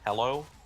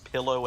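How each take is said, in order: First: The first vowel is the short e of pell. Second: The first vowel is the short i of pill.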